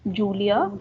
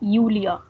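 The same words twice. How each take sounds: First: The name begins with a J sound. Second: The name begins with a Y sound. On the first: The speaker calls it wrong. "we won't be calling her Julia" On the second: The speaker calls it right. "we would be calling her Julia. Y"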